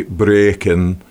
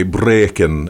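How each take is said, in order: First: Said in the usual way. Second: "breaking" with a hard rolled R; Scottish-style trilled R on "breaking". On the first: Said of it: "we would say breaking". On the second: Shown as a demonstration. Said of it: "you roll the R very hard".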